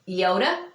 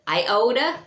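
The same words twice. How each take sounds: First: The first vowel is an 'ee' sound. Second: The first vowel is not an 'ee' sound. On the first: The speaker calls it right. "it's pronounced like with a double E" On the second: The speaker calls it wrong. "sometimes mispronounced as iota"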